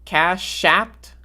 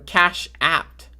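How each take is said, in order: First: The sh sound carries over into the second word. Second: The second word begins with a plain vowel sound.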